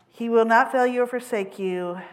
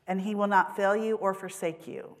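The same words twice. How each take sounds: First: "not" punched, whole line louder and higher; emphatic repeat. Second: Said in the usual way. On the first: Real, not acted. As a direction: proclaim it, leaning on "not". Sermon blessing repeated with force.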